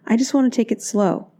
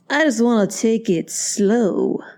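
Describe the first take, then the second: First: It is said in a sweet, gentle tone. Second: It is said in a harsh, cynical tone. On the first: He sincerely wants to go slowly. "now that's the sweet version" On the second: He wants to control the relationship. "notice how my tone is changing"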